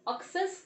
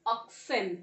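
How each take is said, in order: First: Oxes said with an "-es" ending, the way not to say it; oxes, the wrong "-es" plural; wrong plural shown. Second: Oxen said as "ox-en", falling at the end; correct plural. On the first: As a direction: say oxes as "ox-es" to show the mistake. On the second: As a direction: say oxen firmly as "ox-en". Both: Shown as a demonstration. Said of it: "oxes नहीं".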